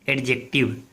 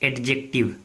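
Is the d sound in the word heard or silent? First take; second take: heard; heard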